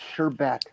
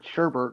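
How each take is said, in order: First: No R sound is in the second syllable. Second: An extra R sound is in the second syllable. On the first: The speaker calls it right. "there's no R" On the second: The speaker calls it wrong. "everybody puts an R in there"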